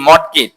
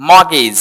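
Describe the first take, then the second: First: মর্টগেজ as "mot-gej", t sounded; learner's spelt-out মর্টগেজ; common mispronunciation. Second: মর্গেজ as "mo-giz", no t; silent t. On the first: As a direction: hit the t inside মর্টগেজ. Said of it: "এটাকে বলি মর্টগেজ". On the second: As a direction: glide from "mo" straight into g in মর্গেজ. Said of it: "এখানে টিটা silent থাকবে". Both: Shown as a demonstration.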